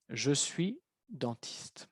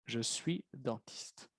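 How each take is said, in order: First: Slow, clearly spaced "Je suis dentiste"; slow model answer. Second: Slow and softer "Je suis dentiste"; slow model answer. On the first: Teacher modelling the answer for the class, slow and clear. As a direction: say "Je suis dentiste" word by word, slowly. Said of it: "answer said slowly as a model". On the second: Teacher repeating the answer for students, slow and soft. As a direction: say "Je suis dentiste" slowly, dropping the voice. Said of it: "model answer, quieter and slow". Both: Shown as a demonstration.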